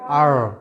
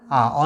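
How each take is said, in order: First: The letter is said with a final r sound. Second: The letter is said without a final r sound.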